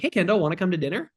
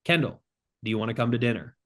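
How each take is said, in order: First: "dinner" lifted up at the end, quick and unsure; upturned question inflection; uncertain rising tune. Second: "dinner" pulled down at the end, settled and direct; confident falling tune. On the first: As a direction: ask it like you don't know the answer. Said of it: "It sounds like a question". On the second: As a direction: say it like a statement, certain. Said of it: "we're gonna change the tonality". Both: Shown as a demonstration.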